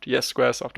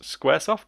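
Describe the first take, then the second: First: Squaresoft said as a settled answer, no rise; confirming Squaresoft. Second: Squaresoft said higher with a rising, unsure end; questioning SQUARESOFT. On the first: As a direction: confirm the name Squaresoft in your usual pitch. Confirms the name just questioned. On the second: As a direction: check the name Squaresoft as a question. Doubts the name, then confirms. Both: Real, not acted.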